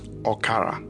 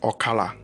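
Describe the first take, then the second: First: The middle consonant is an R sound. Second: The middle consonant is an L sound. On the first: "can also be pronounced as Okara" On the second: "O K A L A"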